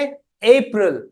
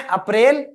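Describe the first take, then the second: First: It is pronounced the English way. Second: It is pronounced the Hindi way. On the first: "English में अप्रैल" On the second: "Hindi में अप्रैल"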